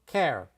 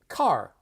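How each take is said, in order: First: Said in a Chicago accent with flattened vowel. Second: Said in a Los Angeles accent with clear r. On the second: "so Los Angeles"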